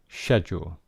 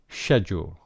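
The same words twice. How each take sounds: First: It is said with a British pronunciation. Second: It is said with a British pronunciation.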